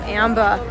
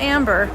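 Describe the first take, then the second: First: The name ends without an r sound. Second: The name ends with an r sound. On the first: "I love the way he says his wife's name" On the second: "It's not Amber"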